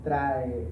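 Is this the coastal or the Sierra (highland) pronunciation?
coastal. It is said with the general coastal Spanish sound. "in Spanish, we can say trae algo"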